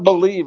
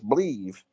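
First: The word is said with both syllables, be-lieve. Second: The word is squeezed into one syllable, bleev. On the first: The speaker calls it wrong. "it's not believe" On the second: The speaker calls it right. "It's believe. ... B-L-E-A-V"

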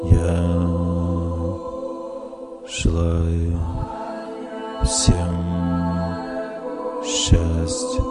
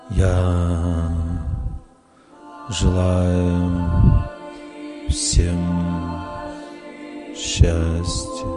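First: It is said calmly, like a prayer. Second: The same.

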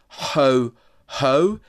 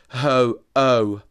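First: The second syllable begins with an h sound. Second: The second syllable begins with a bare vowel. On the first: The speaker calls it wrong. "actually, it's not ho-ho" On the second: The speaker calls it right. "it's ho-o"

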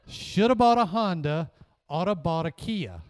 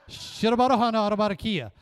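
First: The words are said slowly. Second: The words are said quickly. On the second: "then fast"

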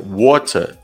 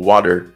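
First: It is said in a British accent. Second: It is said in an American accent.

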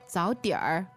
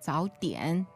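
First: The word ends with an added r sound. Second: The word ends without an added r sound. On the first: "However, in the north, people may say" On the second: "Southerners, they don't like to add this r afterwards"

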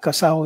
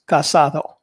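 First: The middle d sound is dropped. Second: The middle d sound is pronounced. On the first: This is the local street way of saying it. The speaker calls it wrong. "It's not casao" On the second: This is the standard way of saying it. The speaker calls it right. "it's casado. But nobody in Santa Fe says casado"

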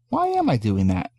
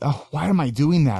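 First: It sounds curious and open. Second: It sounds judgmental and self-critical.

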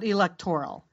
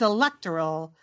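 First: The stress falls on the third syllable. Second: The stress falls on the second syllable. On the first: The speaker calls it wrong. "not the third" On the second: The speaker calls it right. "the accent is on the second syllable"

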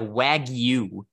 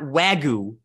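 First: The g is followed by a clear y sound. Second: The g is said without a following y sound. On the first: The speaker calls it right. "there's a Y in there. It's like Wagyu" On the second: The speaker calls it wrong. "It's not Wagyu"

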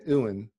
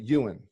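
First: The name starts without a Y sound. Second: The name starts with a Y sound. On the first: The speaker calls it wrong. "I was skipping the Y part" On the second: The speaker calls it right. "should actually be pronounced Ewan, Y-E-W-A-N"

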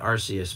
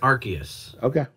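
First: The c is said as an s sound. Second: The c is said as a k sound. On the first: "that's what I always used to say" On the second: "they pronounce it with the hard C. So that's what I started going with"

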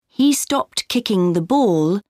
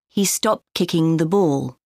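First: The final T sound of 'stopped' is pronounced. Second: The final T sound of 'stopped' is dropped.

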